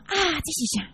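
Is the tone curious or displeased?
curious. It is asked with plain curiosity.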